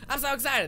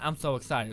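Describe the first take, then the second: First: It sounds lively and truly excited. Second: It sounds flat and unenthusiastic.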